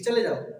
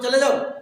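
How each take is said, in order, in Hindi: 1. यह सादे, शांत स्वर में बोला गया है। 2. यह ऊँचे, ज़ोरदार स्वर में बोला गया है। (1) "एक सेंटेंस है कि चले जाओ" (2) "बोलने का तरीका उसको चेंज कर दोगे"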